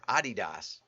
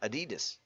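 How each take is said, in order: First: It is said in an unfamiliar, Abu-Dhabi-like way. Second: It is said in the speaker's usual way. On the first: This is how another person says the name. "He pronounces it Adidas, which I've never heard before" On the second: This is how the speaker always says the name. "I've always said it Adidas"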